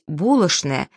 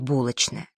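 First: It is said in the old Moscow way. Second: It is said in the modern standard way. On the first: "это не манерное произношение, а старомосковское" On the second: "сегодня предпочтительно"

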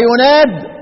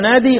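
First: The word ends without a final long ee vowel. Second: The word ends with a final long ee vowel. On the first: This is the reading shared by all reciters. "الحذف يوم إيه؟ يوم يناد" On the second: This is the reading of one reciter alone. "طب الإثبات يوم ينادي"

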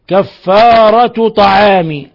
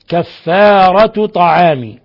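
The two takes are said the same way.

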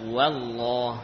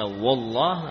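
First: The first syllable is pronounced light and thin. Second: The first syllable is pronounced heavy and thick. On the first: The speaker calls it right. "namun dibaca" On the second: The speaker calls it wrong. "bukan dibaca"

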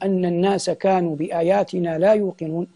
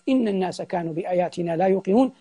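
First: The first word begins with the vowel a. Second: The first word begins with the vowel i. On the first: These words are the creature's own speech. "فإذا قلنا بفتح الهمزة" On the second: These words start a new statement, not the creature's speech. "لكن إن جئنا بكسر الهمزة"

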